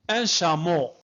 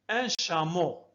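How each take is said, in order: First: Plain. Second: Said in the usual way. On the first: Shown as a demonstration. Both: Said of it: "ممتاز".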